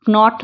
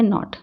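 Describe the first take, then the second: First: नॉट with the silent k wrongly sounded, "k-not"; voiced k at the start of नॉट; wrong pronunciation. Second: Said in the usual way. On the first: Shown as a demonstration. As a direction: say नॉट as "k-not", hard k before the n. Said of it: "नॉट नहीं पढ़ेंगे". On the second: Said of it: "क्या पढ़ेंगे?".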